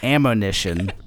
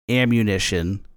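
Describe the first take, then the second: First: The second syllable is said as 'mo'. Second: The second syllable is said as 'mu'. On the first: This is the supposed original pronunciation. The speaker calls it right. "it's supposed to be pronounced ammonition" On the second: This is the usual current pronunciation. The speaker calls it wrong. "we're actually mispronouncing ammunition"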